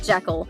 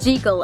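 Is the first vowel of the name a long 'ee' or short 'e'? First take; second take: short e; long ee. First: The first vowel is a short 'e' sound. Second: The first vowel is a long 'ee' sound. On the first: The speaker calls it wrong. "and not Jekyll" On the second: The speaker calls it right. "apparently it's Jekyll"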